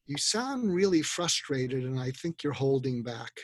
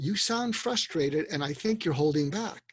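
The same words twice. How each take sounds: First: Slow, calm, empathetic statement; slow and steady, naming their frustration; calm empathy. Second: Calm empathy. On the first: To someone venting, a slow calm empathetic line. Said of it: "you look at them and you say". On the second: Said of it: "empathetic statement". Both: Shown as a demonstration.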